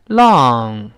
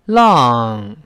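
The two takes are said the same way.

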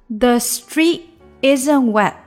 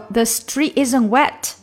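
First: The final t sounds are dropped and unreleased. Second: The final t sounds are clearly released. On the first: "所以几个t 结尾的音呢都没有出来" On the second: "这样也是可以的，只不过它会让句子稍微的可能长一些"

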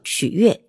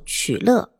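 First: The second syllable is pronounced yue. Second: The second syllable is pronounced le. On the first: "又叫曲月" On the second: "书里有个角色叫曲乐"

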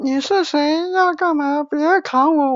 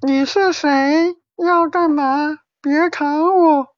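First: It is said fast. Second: It is said slowly.

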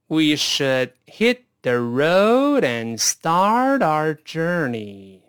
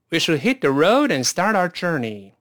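First: The sentence is spoken at a slow pace. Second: The sentence is spoken at a fast pace. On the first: "再来一遍慢速啊" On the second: "快点试试看"

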